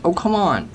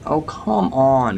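First: High, frustrated cry, leaning on come; fed up, pitched up protest; exasperated outburst. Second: Slow, dragged-out complaint, come stretched long; weary disbelief, dragged out; drawn-out groan. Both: Real, not acted. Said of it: "I'm just getting a bit annoyed".

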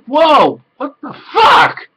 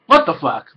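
First: High, loud, slow rising what the fuck; drawn-out incredulous yelp; squeaky shocked outburst; shocked disbelief. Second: Said in the usual way. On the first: Retold or imitated. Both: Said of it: "And I'm like".

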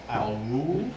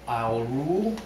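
The two takes are said the same way.

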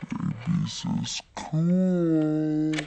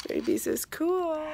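First: Babies is cool dragged out slow and low; silly low drawn-out voice. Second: Said in the usual way. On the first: Shown as a demonstration. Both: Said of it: "repeats phrase in other voice".

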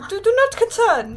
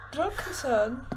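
First: Raised, louder reassurance; louder insistent repeat. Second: Said in the usual way. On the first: Acted. Player reassuring the bald child, loud and insistent. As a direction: say it again, higher and louder, insisting.

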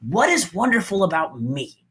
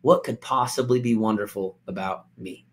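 First: Open, curious asking; light, upbeat tone; hopeful self-question. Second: Defeated, quiet self-pity; self-doubting. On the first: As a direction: wonder about yourself with confidence. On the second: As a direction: lower and softer, deflated. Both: Shown as a demonstration. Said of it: "Do you hear the difference in my tone of voice".

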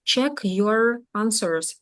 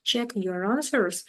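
First: "Check your answers" very slowly, word by word; teacher's slow model of "Check your answers"; separated words. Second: "Check your answers" slowly but joined up, yo-ranswers; teacher's linked model of "Check your answers"; linked words. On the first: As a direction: leave gaps between "check", "your" and "answers". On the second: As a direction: carry the r of "your" straight into "answers". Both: Shown as a demonstration. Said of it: "повинні їх з'єднати вимовою".

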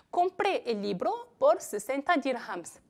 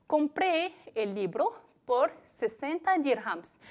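First: Said in the usual way. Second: Slow example sentence, stress on compré; slow dictation. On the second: Shown as a demonstration. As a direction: read it slowly for students, leaning on compré. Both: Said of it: "Pues repito los dos ejemplos".

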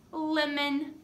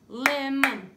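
First: Said in the usual way. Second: "Lemon" in two loud, separate beats, "lem-mon"; clapped syllables. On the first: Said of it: "This is a lemon". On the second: Shown as a demonstration. Teacher clapping syllables, "Lemon" as two loud beats. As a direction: punch out both syllables of "Lemon" evenly. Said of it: "Two syllables in lemon".

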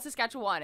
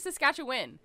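First: SASKATCHEWAN with an open "wun" or "wahn" ending; Saskatchewan ending in WAN. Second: SASKATCHEWAN with a short "win" ending. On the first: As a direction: say the end of Saskatchewan as a full "wahn". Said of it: "not Saskatchewan". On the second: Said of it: "apparently it is Saskatchewan". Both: Shown as a demonstration.

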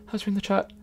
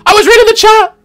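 First: Much softer, deflated repeat; quiet. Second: High, loud indignant shout. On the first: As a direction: drop it to a quiet mutter. Repeats it after the shout. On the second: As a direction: shout it out in protest. Defending himself against teasing. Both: Real, not acted.

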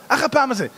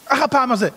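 Both takes have the same delivery.

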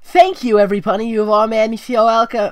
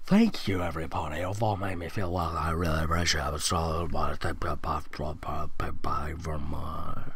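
First: Much higher, louder joyful thanks; loud tearful joy. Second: Lower, softer, fading into a whisper; soft tearful thanks. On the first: Sunset thanking every pony at the party, loud and high. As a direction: cry it out to the whole party. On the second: Sunset thanking every pony, soft and low, nearly whispering. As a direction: murmur your thanks as if moved to tears. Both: Acted.

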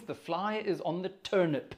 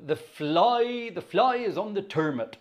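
First: Said in the usual way. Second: Put-on rural Wiltshire accent, pitched up. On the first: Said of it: "which means". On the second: Shown as a demonstration. Organist reading out a county song title, Wiltshire accent. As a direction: read it higher, in broad Wiltshire dialect, "turnip" as "turmut". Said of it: "about as good as my Wiltshire accent gets".

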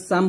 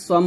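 First: সাম with a light S and open A; thin S. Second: সম with heavy S and rounded vowel; wrongly thickened S. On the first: Teacher giving pupils the correct word, thin S. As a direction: keep সাম thin, not rounded. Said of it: "বলতে হবে". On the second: Teacher showing pupils what not to say, S thickened. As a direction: round সম as if it began with Sad. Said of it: "বলা যাবে না". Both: Shown as a demonstration.

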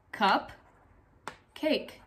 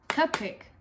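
First: "Cup, cake" with a long pause between the words; two separate words. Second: Said in the usual way. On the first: Shown as a demonstration. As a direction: say "Cup", stop, then "cake" on its own. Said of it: "Two words, cup and cake". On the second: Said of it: "pushed together to make one word".

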